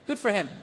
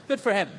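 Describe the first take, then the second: No difference in how they are said.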